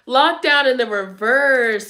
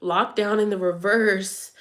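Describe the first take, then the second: First: Lockdown punched and drawn out slowly; emphatic, slow. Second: Said in the usual way. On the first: Shown as a demonstration. To Leo viewers, stressing Lockdown slowly and firmly. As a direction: lean hard on Lockdown, slower. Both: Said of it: "repeated with emphasis".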